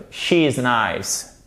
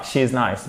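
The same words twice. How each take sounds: First: Slow she is nice with a long I; correct she is nice. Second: Short French-style she is nice; wrong she is nice. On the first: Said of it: "but she is nice". (she is nice lentement, I long) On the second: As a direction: she is nice too clipped. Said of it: "pas she is nice". (she is nice à la française) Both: Shown as a demonstration.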